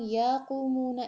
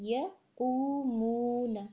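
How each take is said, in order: First: The first vowel is drawn out long. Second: The first vowel is kept short. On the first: The speaker calls it wrong. "یا کو پرولونگ یقومونا اس طرح نہیں کرنا" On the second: The speaker calls it right. "بلکہ یقومونا اس طرح"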